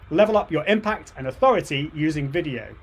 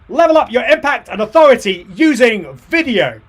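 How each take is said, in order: First: It is said with somewhat more energy. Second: It is said with the most energy.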